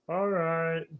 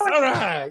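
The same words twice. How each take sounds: First: It is said flatly, without enthusiasm. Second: It is said loudly with excitement.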